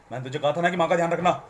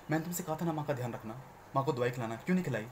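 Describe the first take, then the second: First: Loud harsh scolding as if to a thug; like to a goon. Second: Scolding little brother. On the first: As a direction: bark it like talking to a goon. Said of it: "ऐसा नहीं है कि तुम गुंडे से बात करो". (गुंडे से बात करने जैसा कड़क लहजा) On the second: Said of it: "वो मेरा भाई है". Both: Shown as a demonstration.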